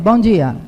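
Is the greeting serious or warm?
serious. It is said in a serious, cold tone.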